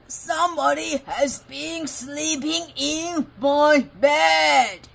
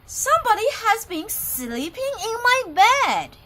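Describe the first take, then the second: First: It is growled in a great big voice. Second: It is said in a medium-sized voice.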